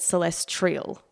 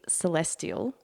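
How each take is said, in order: First: The word is said with an extra sound added. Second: The word is said without any extra sound. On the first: The speaker calls it wrong. "I've been adding a letter and pronouncing it wrong" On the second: The speaker calls it right. "the word is meant to be celestial"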